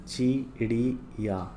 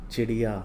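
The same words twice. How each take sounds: First: Slow ची-ड़ी-या; syllable by syllable. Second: Said in the usual way. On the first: Shown as a demonstration. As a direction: read चिड़िया out in separate long syllables. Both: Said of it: "पहले पढ़ लेते हैं".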